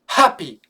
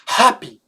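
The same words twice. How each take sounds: First: The initial h sound is clearly pronounced. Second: The initial h sound is clearly pronounced.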